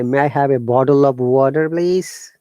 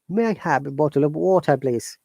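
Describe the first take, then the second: First: It is spoken in an American accent. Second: It is spoken in a British RP accent. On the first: "American will say" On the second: "Pure British R P accent"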